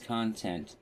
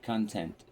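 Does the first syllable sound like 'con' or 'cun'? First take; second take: con; cun. First: The first syllable sounds like 'con'. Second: The first syllable sounds like 'cun'. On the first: The speaker calls it right. "It's pronounced as though con, like pros and cons" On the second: The speaker calls it wrong. "You pronounced it as though it were spelled K U N T"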